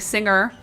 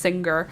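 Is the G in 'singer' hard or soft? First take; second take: soft; hard. First: The G in the middle sounds soft. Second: The G in the middle sounds hard. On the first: It refers to someone who sings. "with a like a soft G when I'm saying someone who sings" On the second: It refers to the sewing machine brand. "when it's that brand"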